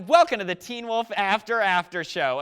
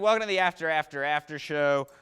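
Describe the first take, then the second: First: It is said with exaggerated enthusiasm. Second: It is said flatly, without enthusiasm.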